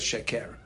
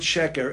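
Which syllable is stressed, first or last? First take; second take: last; first. First: The stress is on the last syllable. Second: The stress is on the first syllable. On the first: The speaker calls it wrong. "No one says sheker" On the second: The speaker calls it right. "everyone pronounces right"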